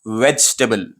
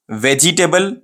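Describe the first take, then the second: First: "वेजिटेबल" run together as VECH-tuh-bul; said as one. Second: "वेजिटेबल" as veh-jee-TAY-bul; full "jee" and "table" in "वेजिटेबल"; broken up. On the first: Teacher reviews the right way, compact "वेजिटेबल". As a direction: drop the middle "i" in "वेजिटेबल". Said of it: "एक साथ में बोले". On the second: Teacher reviews the wrong way, "वेजिटेबल" in full syllables. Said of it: "ये wrong हो जाता क्योंकि आप तोड़ के बोले". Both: Shown as a demonstration.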